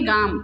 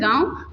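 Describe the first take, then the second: First: The word ends with an m sound. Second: The word ends in a nasal vowel with v. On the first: This is the Braj regional form. "तो यहाँ बोलेंगे गाम" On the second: This is the standard form. "जैसे हम बोलते हैं गाँव"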